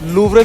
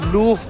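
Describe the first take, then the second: First: The final r sound is pronounced. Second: The final r sound is dropped.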